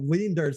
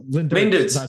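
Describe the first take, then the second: First: The first name has a long vowel. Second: The first name has a short vowel. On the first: This is how the name is actually said. The speaker calls it right. "that's how you say it" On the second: This is the mistaken pronunciation used before meeting him. The speaker calls it wrong. "that's how I always pronounce his name until I actually met him"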